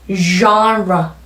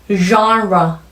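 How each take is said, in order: The two takes are said the same way.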